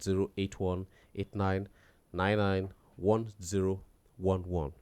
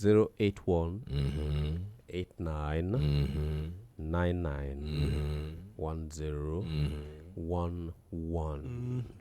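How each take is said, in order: First: The number is read fast. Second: The number is read slowly.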